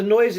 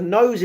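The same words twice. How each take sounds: First: "noise" read by mistake as "noise", with oi; misread word. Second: "nose" said as nose, long o; corrected word. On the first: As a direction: says "noise" instead of "nose". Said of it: "The nose is making me blush". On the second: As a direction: fixes it to "nose". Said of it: "Matt, the noise is making me blush". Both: Real, not acted.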